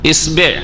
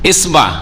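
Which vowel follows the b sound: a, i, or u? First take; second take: i; a. First: The b is followed by an i vowel. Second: The b is followed by an a vowel. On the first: "শুধু বায়ের হরকত" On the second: "শুধু বায়ের হরকত"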